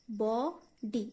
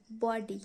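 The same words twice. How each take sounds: First: "बॉडी" broken as बॉ, pause, डी; two separate beats in "बॉडी"; split into syllables. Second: Said in the usual way. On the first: Shown as a demonstration. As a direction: sound out "बॉडी" slowly, bo... di. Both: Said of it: "इसका भी दो syllable निकल रहा है".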